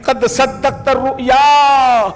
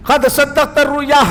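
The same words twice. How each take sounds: First: Chanted, intone the Quranic words slowly over music; chanted, proclaim it slowly like a recitation; slow chanted Arabic. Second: Said in the usual way. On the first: Acted. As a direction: draw out each syllable in a slow chant. Divine declaration, chanted slowly.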